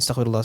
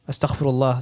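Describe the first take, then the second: First: It is said quickly and mechanically. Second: It is said slowly and with care. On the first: The words are repeated without thought. The speaker calls it wrong. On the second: The speaker means what is said. The speaker calls it right.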